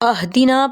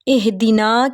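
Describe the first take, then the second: First: The word begins with an 'a' vowel. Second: The word begins with an 'i' vowel. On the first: The speaker calls it wrong. "वो ज़ेर की बजाय ज़बर पढ़ देना" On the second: The speaker calls it right. "जो आपके सामने ज़ेर नज़र आ रही है पहले हर्फ पर"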